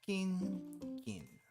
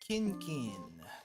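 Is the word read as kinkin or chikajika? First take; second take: kinkin; kinkin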